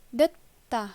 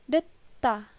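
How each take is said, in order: No difference in how they are said.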